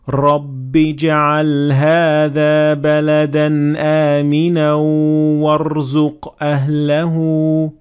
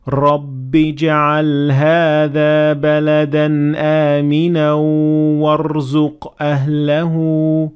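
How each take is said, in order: First: The r sound is trilled too many times. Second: The r sound is trilled too many times.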